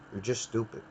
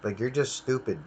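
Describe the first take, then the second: First: Muttered much softer under the breath; quiet repeat. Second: Said in the usual way. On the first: Real, not acted. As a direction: repeat it to yourself, barely audible. Ranting about the IT support guy.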